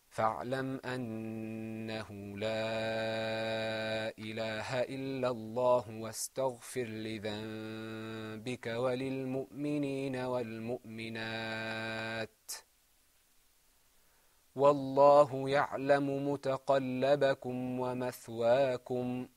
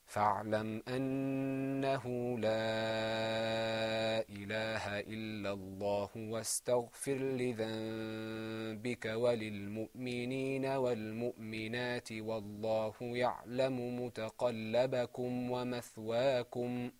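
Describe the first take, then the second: First: There is a pause before the last clause. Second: There is no pause before the last clause.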